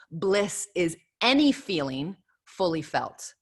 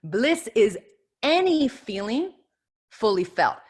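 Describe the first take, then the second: First: Slow, deliberate reading of the quote. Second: Any lifted high and drawn out, feeling held; emphatic repeat. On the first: Speaker quoting Joseph Campbell, slow and deliberate. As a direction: let each word of Bliss is any feeling fully felt land. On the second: Repeating the quote to her audience, any stretched high. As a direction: stretch any feeling with a pause after each part. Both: Shown as a demonstration. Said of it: "I'm gonna repeat that again".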